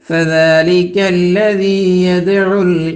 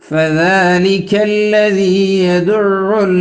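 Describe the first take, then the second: First: The ain sound is short and single. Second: The ain sound is held and doubled. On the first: The speaker calls it wrong. "യദ്ഉ എന്നല്ല" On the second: The speaker calls it right. "ഐനിന് ഷദ്ദ് കൊടുത്തിട്ട് തന്നെ ഉച്ചരിക്കണം"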